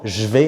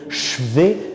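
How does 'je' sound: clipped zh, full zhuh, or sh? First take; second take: clipped zh; sh. First: The 'je' is a voiced 'zh' with no vowel. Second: The 'je' is a voiceless 'sh' with no vowel. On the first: "le e muet qui parfois est coupé" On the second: "est impossible"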